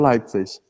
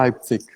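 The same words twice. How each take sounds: First: The final sound is a hissing ch. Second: The final sound is a hard k. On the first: "eu falo Leipzig" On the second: "a pronúncia é quase como um K"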